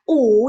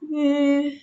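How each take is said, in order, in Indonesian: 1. Ini bunyi u biasa, di belakang dan membulat. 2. Ini bunyi ü tunggal, di depan dan membulat. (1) "Ini bukan dibaca U" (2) "tapi dibaca yu"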